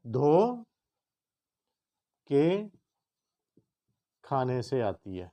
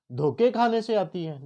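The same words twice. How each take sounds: First: دھو, long pause, then کے, meaning washing; dho ke split. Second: دھوکے said in one piece, meaning deceptions; دھوکے کھانے سے said with no break; dhoke as one word. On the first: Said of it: "بلکہ دھو کے کھانے سے آتی ہے". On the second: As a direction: run دھوکے together, a touch higher. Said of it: "ذرا پڑھیں اس کو". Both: Shown as a demonstration.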